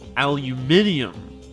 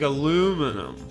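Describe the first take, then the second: First: The word is said with five syllables. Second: The word is said with four syllables.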